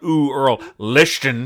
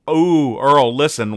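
First: Listen is said with a lisped sh sound. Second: Listen is said with a plain s sound. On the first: "it has a lisp that is not consistent"

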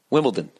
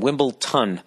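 First: The last syllable starts with a D sound. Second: The last syllable starts with a T sound. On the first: The speaker calls it right. "But it's Wimbledon, D-O-N" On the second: The speaker calls it wrong. "Yet another word that I've been mispronouncing. T-O-N"

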